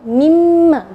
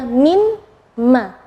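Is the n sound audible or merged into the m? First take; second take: merged; audible. First: The n sound merges completely into the m. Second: The n sound is heard before the m. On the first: The two letters are joined into one. "Ketika digabung mimma, jadi nunnya tidak kelihatan" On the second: This is the original form before joining. "Kalau asalnya"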